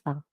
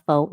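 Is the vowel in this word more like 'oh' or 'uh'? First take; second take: uh; oh. First: The vowel is a short 'uh' sound. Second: The vowel is a long 'oh' sound. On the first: The speaker calls it right. "I am pronouncing it right because that's exactly how it's pronounced" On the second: The speaker calls it wrong. "It's not faux"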